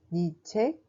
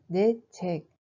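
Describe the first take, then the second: First: « 네 책 » dit « ni tchèk », voyelle i; prononciation parlée. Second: Said in the usual way. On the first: Shown as a demonstration. (« 네 » sonne comme « ni » devant « 책 ») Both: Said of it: "Mais on prononce comme".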